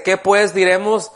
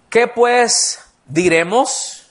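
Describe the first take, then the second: First: Said in the usual way. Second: Slow, rising question on QUÉ; "¿Qué pues diremos?" drawn out slowly with QUÉ lifted and a rising end; posed question. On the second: Shown as a demonstration. Preacher throws the question to the congregation, slow and rising. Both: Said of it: "así como que les va a lanzar una pregunta".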